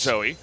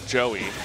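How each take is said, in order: First: The name begins with a z sound. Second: The name begins with a j sound. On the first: This is how English speakers say the name. "not Zoe" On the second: This is how Korean speakers say the name. "use the J sound, which ends up being Joey"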